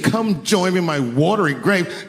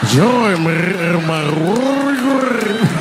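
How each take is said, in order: First: It is said in a plain voice. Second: It is said in a rolling, throaty voice.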